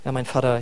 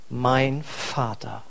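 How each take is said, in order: First: It is rattled off in a routine way. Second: It is said slowly with heartfelt emphasis.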